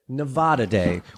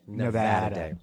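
First: Nevada is said with a Spanish-style vowel. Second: Nevada is said with the local Nevadan vowel. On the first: This is how the rest of the country says it. "as the Spaniards probably originally pronounced it" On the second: This is how people living in the state say it. "we live in Nevada, so we say"

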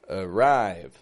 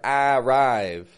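First: The first vowel is a weak schwa. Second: The first vowel is a full, clear vowel. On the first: The speaker calls it right. "but arrive. Weak, strong" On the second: The speaker calls it wrong. "or arrive"

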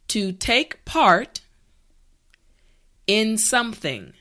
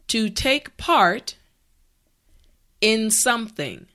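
The two takes are said the same way.

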